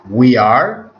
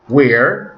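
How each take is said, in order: First: Both words are said in full, separately. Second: The words are contracted into one syllable.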